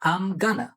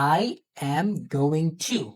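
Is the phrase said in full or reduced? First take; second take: reduced; full. First: It is squeezed into two short syllable groups. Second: Every word is said fully and separately. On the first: "American এটাকে বলে" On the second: "আমরা এটাকে কি বলি?"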